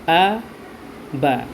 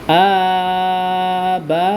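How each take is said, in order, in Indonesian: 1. Suku katanya pendek dan terputus. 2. Suku katanya diucapkan panjang, tidak dipotong pendek. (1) "secara pendek atau putus" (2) "diurai ataupun dieja ... jangan kita baca seperti itu"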